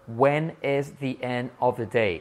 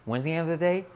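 First: It is said slowly with each word separate. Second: It is said quickly and run together.

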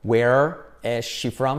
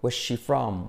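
First: Each word is said separately. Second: The words run together as one.

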